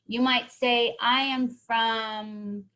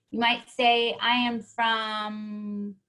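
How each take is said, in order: Both takes have the same delivery.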